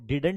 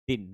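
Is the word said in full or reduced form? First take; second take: full; reduced. First: The word is said in full, with both d sounds. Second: The word is reduced to a short single syllable. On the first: "हम इसको डिडंट बोलते हैं" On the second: "इसकी एक दूसरी sound भी होती है जिसको हम डिन भी कह सकते हैं"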